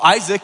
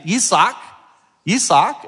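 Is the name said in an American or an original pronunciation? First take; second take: American; original. First: The name is said the familiar American way. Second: The name is said in its original pronunciation. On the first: This is the customary form people are used to. The speaker calls it wrong. "we call Isaac" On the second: This is how the name really sounds. The speaker calls it right. "It's actually Isaac"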